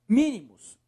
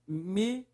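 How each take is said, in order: First: Said in the usual way. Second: "Mínimos" split into separate syllables with long gaps. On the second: Shown as a demonstration. Teacher breaking up the word, "Mínimos" syllable by syllable. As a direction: say "Mínimos" one syllable at a time.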